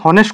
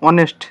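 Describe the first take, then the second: First: The word starts with an audible h sound. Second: The word starts with a vowel, no h. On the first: The speaker calls it wrong. "এইটো কি তুমি হনেষ্ট কোৱা নেকি? নোকোৱা ন?" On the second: The speaker calls it right. "এইচটো কি উচ্চাৰিত নহয়"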